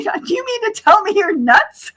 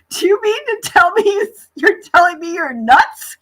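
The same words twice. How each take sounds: First: High-pitched mock disbelief with a laugh behind it; incredulous retold quote. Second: High, louder question breaking into laughter; incredulous laughing blurt. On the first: Retelling the line to her friends in amused disbelief. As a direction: replay the punchline in a disbelieving voice. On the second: Retold or imitated. Telling him he's nuts while laughing at him. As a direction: blurt it out, already cracking up.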